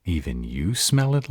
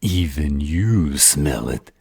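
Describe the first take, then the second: First: Said in the usual way. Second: "Even" leaned on, drawn out, mocking; stress on "Even". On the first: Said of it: "There he goes again". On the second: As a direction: Cobalt mocks the vampire's word "Even" with scornful stress. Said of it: "There he goes again, using the word even".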